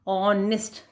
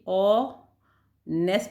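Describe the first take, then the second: First: The second syllable has a short 'i' vowel. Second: The second syllable has the vowel of 'nest'. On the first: The speaker calls it right. "निस्ट" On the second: The speaker calls it wrong. "ऑ नेस्ट नहीं है बेटा"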